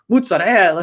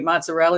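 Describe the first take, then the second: First: It is said with an Italian-style pronunciation. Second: It is said with an American English pronunciation. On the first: "no, no, no, it's mozzarella" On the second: "because I say mozzarella"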